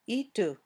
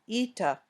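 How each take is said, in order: First: An extra "oo" vowel follows the final t. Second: An extra "ah" vowel follows the final t. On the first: "or itu" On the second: "should not sound like ita"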